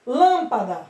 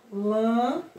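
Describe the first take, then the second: First: Said in the usual way. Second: LÂMPADA split into lâm, pa, da with long gaps; spaced-out dictation of lâmpada, lâm... pa... da; syllable by syllable. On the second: Shown as a demonstration. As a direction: say "lâmpada" one syllable at a time. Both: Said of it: "Ó".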